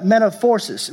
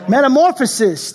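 First: "metaphorsis" said as met-a-FOR-sis, garbling the word; "metaphorsis" mangled before the self-correction; mispronounced. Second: "metamorphosis" said properly as met-a-MOR-pho-sis, higher; "metamorphosis" finally right, raised with relief; corrected pronunciation. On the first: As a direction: stumble into "metaphorsis" with a for-sis ending. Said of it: "I have problem pronouncing". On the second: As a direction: land "metamorphosis" cleanly on the second try, pitched up. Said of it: "That's what happens when I don't look". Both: Real, not acted.

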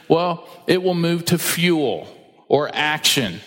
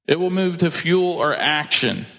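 First: "well, it will move to fuel or action" drawn out slowly with a pause before "or action"; slow, weighty emphasis on "fuel or action"; slow emphatic phrasing. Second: Said in the usual way. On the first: Shown as a demonstration.

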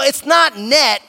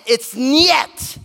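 First: "net" with a plain N, no y-glide; high, loud "net", rhyming with bet; wrong pronunciation NET. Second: "niet" with a y-glide, nyet; high, emphatic "niet", said as nyet; corrected pronunciation NIET. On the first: Dad correcting his daughter's Russian, stressing the wrong "net". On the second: Dad correcting his daughter's Russian, stressing the proper "niet". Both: Retold or imitated.

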